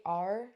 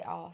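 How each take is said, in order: First: "R" said the way locals do, with a heavy rhotic burr; local West Country R. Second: Said in the usual way. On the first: Shown as a demonstration. Imitating the locals' way of saying the letter R. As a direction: say "R" like the people where she lives, rolled and burred. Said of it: "So they say R". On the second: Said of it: "but I say R".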